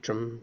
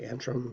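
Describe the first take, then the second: First: The word is said without an n before t. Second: The word is said with an n before t. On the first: This is how some other people say it. "some people say Atrim" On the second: This is how the speaker says it. "but I say Antrim"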